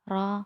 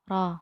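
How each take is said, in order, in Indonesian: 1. Vokal setelah r berada di antara o dan a. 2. Vokal setelah r berada di antara o dan a.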